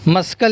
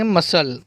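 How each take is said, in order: First: A k sound is pronounced before the final l. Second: No k sound is pronounced before the final l. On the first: The speaker calls it wrong. "अगर हम सी की आवाज़ निकालें तो उसको पढ़ेंगे मस्कल" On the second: The speaker calls it right. "यहाँ पर सी साइलेंट है इसलिए इसको पढ़ेंगे मसल"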